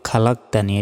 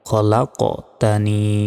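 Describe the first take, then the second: First: The q sound is said plainly, without a bounce. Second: The q sound is said with a bounce. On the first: The speaker calls it wrong. "আমরা অনেকে বলি খালাকতানি, এটা নয়" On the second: The speaker calls it right. "ধাক্কা দিয়ে উচ্চারণ করতে হয়"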